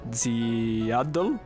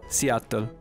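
First: It begins with a z sound, slurred. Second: It begins with a clear s sound. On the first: The speaker calls it wrong. "Lui è un gatto, quindi fa Ziadl" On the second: The speaker calls it right. "Adesso ve lo dico"

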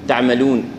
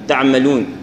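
The two takes are said the same way.

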